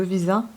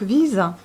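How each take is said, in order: First: Visa stressed on the last syllable; French visa, weight on the final sa. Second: Visa with VI stressed, Russian style; stress on first syllable. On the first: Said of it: "sur la dernière syllabe". (accent français sur la dernière syllabe) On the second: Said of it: "c'est sur la première". (accent sur la première syllabe) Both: Shown as a demonstration.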